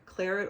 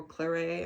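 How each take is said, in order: First: Claret with a sounded final t, KLAIR-it; English pronunciation. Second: Claret with a silent t, klair-AY; French-style pronunciation. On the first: Unsure of the yarn color's name, Claret said KLAIR-it. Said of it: "I don't know how it's pronounced". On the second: Guessing at the French color name, Claret said klair-AY. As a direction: end Claret on an "ay" sound. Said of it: "it's French". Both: Shown as a demonstration.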